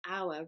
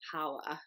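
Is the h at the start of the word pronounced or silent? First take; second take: silent; pronounced. First: The word starts with no h sound. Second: The word starts with an h sound. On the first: The speaker calls it right. "it's actually pronounced hour" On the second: The speaker calls it wrong. "rather than hour"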